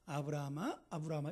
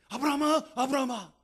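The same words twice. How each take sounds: First: It is called calmly and slowly. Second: It is called loudly and urgently.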